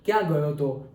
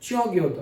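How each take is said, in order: First: It is said with standard 'kya'. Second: It is said Mehsana-style, with 'chyon'.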